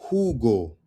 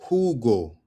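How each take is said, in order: Both takes have the same delivery.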